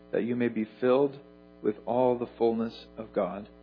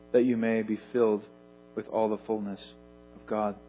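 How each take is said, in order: No difference in how they are said.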